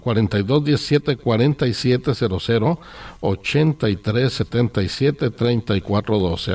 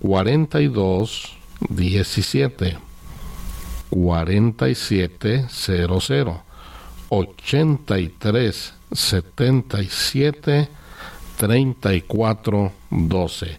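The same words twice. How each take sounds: First: The number is read at normal speed. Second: The number is read slowly and carefully.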